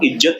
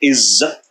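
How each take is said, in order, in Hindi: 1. बीच का व्यंजन 'j' ध्वनि है। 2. बीच का व्यंजन 'z' ध्वनि है। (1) "वो इज्जत ही बोलेगा" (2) "इज्जत शब्द में नुक्ता लगता है, हम सबको इज्जत बोलना चाहिए"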